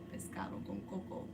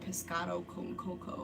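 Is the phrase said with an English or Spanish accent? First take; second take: Spanish; English. First: It is said with a Spanish-style accent. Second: It is said with an English-style accent. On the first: "I say pescado con coco, which I'm not saying it like super like in" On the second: "I don't say"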